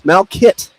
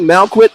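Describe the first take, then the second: First: The second syllable sounds like 'kit'. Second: The second syllable sounds like 'kwit'. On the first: The speaker calls it right. "but it's Malkit" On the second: The speaker calls it wrong. "I was saying Malquit on the air"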